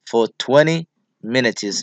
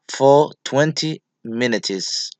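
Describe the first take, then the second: First: It is said with an American accent. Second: It is said without an American accent.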